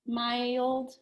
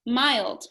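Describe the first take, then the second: First: Slow stretched mild; Mild stretched out, sound by sound. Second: Said in the usual way. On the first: Shown as a demonstration. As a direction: blend the sounds of Mild slowly. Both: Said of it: "M, I, L, D".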